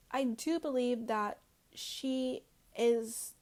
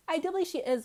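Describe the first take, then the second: First: Slow, with weight on do; slow emphatic claim. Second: Higher and louder, punching believe; higher, louder restatement. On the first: Slowly stressing do while accusing Lisa of the leak. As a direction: lean hard on do, dragging the words out. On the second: Vlogger repeats her Lisa accusation, higher and louder. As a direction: blurt believe out with conviction. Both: Real, not acted.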